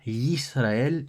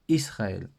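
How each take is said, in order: First: The word begins with a Y sound. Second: The word begins directly with a vowel. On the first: The speaker calls it right. "Israël commence euh, par un yud avec un voyelle" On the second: The speaker calls it wrong. "et pas Israël"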